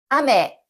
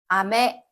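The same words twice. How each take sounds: First: The pitch is high on the first syllable. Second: The pitch is high on the second syllable. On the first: It means rain. "비란 뜻의 아메는 앞에 나오는 아를 높게 읽고" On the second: It means candy. "사탕이란 뜻의 아메는 뒤에 나오는 메를 높게 읽습니다"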